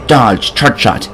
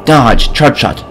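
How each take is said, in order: Both takes have the same delivery.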